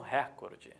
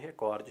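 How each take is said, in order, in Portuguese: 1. A tônica está na primeira sílaba. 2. A tônica está na segunda sílaba. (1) "Escutamos muito, principalmente nos meios de comunicação" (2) "então é recorde"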